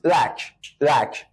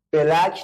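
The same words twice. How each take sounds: First: بلک said as English black, the right way; teacher demonstrating the correct English بلک; English pronunciation. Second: بلک said the Persian way, as the wrong example; بلک in the Persian loanword way, marked as wrong. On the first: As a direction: model بلک the way English speakers say it. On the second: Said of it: "بلک نیست". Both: Shown as a demonstration.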